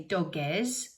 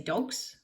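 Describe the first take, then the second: First: The plural ends with an added es syllable. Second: The plural ends with a plain s sound. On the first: The speaker calls it wrong. "We don't say dogges" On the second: The speaker calls it right. "we say dogs"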